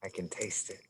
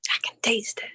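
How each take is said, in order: First: Quiet. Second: Hushed, unvoiced echo; whispered. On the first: Real, not acted. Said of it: "responds to partner, echo game". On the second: Shown as a demonstration. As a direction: whisper it breathlessly. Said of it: "echoes partner's line whispered".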